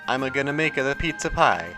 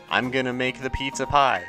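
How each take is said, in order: First: Extra uh vowels are inserted between the words. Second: The words flow without any added vowels. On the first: "throw vowels in there where they don't belong" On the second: "the difference in flow"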